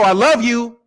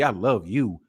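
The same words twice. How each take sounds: First: It is said lightly and offhandedly. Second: It is said in a low, seductive way. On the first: The speaker is not being serious. "That ain't serious" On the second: The speaker wants sex. "That means I want to get some"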